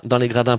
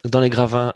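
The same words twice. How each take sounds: First: Said in the usual way. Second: Gravins said with a v, a stumbled slip for gradins; slip of the tongue. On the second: Real, not acted. Pundit on the final, stumbling over gravins. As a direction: trip over the word, saying gravins.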